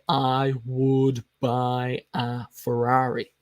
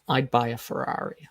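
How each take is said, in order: First: The word would is said in full. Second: Would is reduced to a subtle d sound. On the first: The speaker calls it wrong. "We don't speak English like that" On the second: The speaker calls it right. "the wood is contracted to a D, very subtle D sound"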